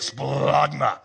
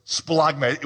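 First: Splagma pushed up from the gut, falling; felt from the gut. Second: Said in the usual way. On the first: Shown as a demonstration. Preacher showing the congregation how Splagma feels from the gut. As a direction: say Splagma so they feel it. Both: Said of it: "can you feel it when you say it".

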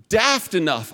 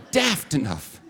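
First: Put-on a light, offhand British accent on "daft enough", with "daft" falling; mock British accent. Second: "Daft enough" repeated in a bigger, shouted mock British accent with "Daft" falling; hammed-up British accent. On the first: Pastor accidentally slipping into British slang mid-sermon, light mock British accent. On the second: Pastor repeating his British slip for laughs, hammed-up mock British accent. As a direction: ham up the British accent as a joke at yourself. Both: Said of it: "I'm not British".

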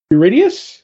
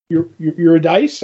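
First: "Eurydice" said yoo-RID-ee-us, rising like a question; unsure pronunciation. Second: "Eu-, Eu-, Eurydice" stammered, then said YUR-uh-dice with a rising question; stumbling second try. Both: Real, not acted. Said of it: "I don't know how to say that name".

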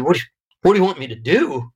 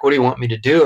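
First: Higher, fast, disbelieving echo; incredulous. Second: Said in the usual way. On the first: Retold or imitated. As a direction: throw the question back in disbelief. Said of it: "And my mom said". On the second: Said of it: "from his G P saying".

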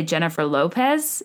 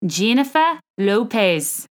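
First: Said in the usual way. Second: Slow, practised Australian accent. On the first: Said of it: "way to practice is to say". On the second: Shown as a demonstration. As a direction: try out the name in an amateur Australian accent. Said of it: "practicing my Australian accent".

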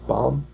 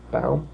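First: "Baum" with an open AH, questioning rise; unsure "Baum?", vowel as in father; Baum as "BOM". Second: "Baum" rhymed with town, questioning rise; unsure "Baum?", vowel as in cow; Baum as "BOWM". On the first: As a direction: try Baum like "bomb". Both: Shown as a demonstration. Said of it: "I don't know".

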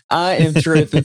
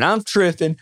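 First: Full, separate I AM before "tripping"; emphatic restatement. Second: Said in the usual way. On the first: Retold or imitated. Angler insisting on how thrilled he was, emphatic. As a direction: punch "I am", every word distinct.

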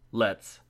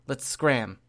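First: Haunting voice. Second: Said in the usual way. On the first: A narrator's reading. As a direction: make it sound ghostly and unsettling. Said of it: "he agreed in his haunting voice".

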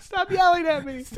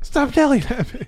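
First: High whiny complaint. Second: Whiny high voice. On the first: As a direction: whine it back in a high voice. Mock reply to impression. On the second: Repeats the whine. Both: Retold or imitated.

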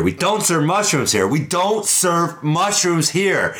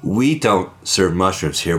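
First: Climbing higher and slower, losing patience; building up to a blowup; rising bartender anger. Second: Said in the usual way. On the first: Acted. Bartender losing patience with the mushroom, rising higher.

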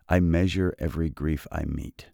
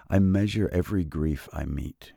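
Both takes have the same delivery.

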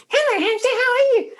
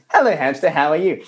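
First: Very high, squeaky playback; tiny mimicking hamster voice; high-pitched toy hamster. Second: Put-on slightly raised child-like chant; lightly voiced little boy; son playing with toy. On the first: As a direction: parrot it back in a squeaky toy voice. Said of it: "plays it back really high-pitched". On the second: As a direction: call it to the toy like a kid. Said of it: "he's outside going".

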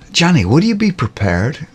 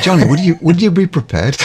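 First: High, mock American sales voice; started American accent, then dropped. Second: Higher, louder mock Irish lilt, laughing at the end; failed American turning Irish; accidental Irish accent. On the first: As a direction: put on a salesy American twang. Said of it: "I'm not gonna do an American accent". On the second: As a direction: salesman line slipping into Irish. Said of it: "Sounds Irish".

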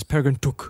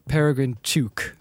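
First: "Took" with a short vowel, as in book; movie pronunciation. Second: "Took" with the long vowel of Duke. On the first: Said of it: "not the one the movie does". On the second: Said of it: "it's Took like Duke". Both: Shown as a demonstration.

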